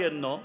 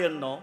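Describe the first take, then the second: No difference in how they are said.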